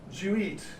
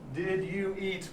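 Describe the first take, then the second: First: The first two words shrink to one syllable. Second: All three words are said in full.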